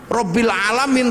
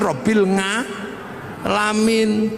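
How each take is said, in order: First: It is said with standard Arabic sounds. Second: It is said with a Javanese accent.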